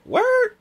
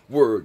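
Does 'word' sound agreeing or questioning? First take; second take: questioning; agreeing. First: It sounds like a surprised, questioning reaction. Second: It sounds like firm, agreeing affirmation. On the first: The speaker is surprised by the statement. "but word as in word?" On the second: The speaker agrees with the statement. "word as in word, they should just let him die"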